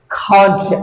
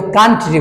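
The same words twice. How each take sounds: First: কান্ট্রি with an au glide; correct way. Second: কান্ট্রি said with a flat a; common local way. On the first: Teacher modelling the correct vowel in কান্ট্রি. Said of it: "আসলে কি". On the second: Teacher showing how students say কান্ট্রি. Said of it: "এখানে আমরা কিন্তু কান্ট্রি বলি". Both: Shown as a demonstration.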